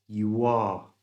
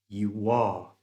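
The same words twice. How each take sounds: First: A small W sound links the two words. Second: The same.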